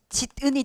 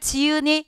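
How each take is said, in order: First: A consonant is heard between the first two syllables. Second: No consonant is heard between the first two syllables. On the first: The speaker calls it wrong. "저는 이렇게 발음하고 사는데요. 그런 사람 없어요" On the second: The speaker calls it right. "집을 지으니 이렇게 발음하죠"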